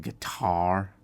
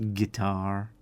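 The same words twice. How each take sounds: First: It uses the common everyday pronunciation. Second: It uses the less common, accented pronunciation. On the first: The speaker calls it right. "we say guitar" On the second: The speaker calls it wrong. "not guitar"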